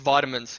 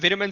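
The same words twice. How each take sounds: First: It is said with the Australian pronunciation. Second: It is said with the English pronunciation. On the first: "it's vitamins if you're if you're in Australia" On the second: "the vitamins is a real English thing"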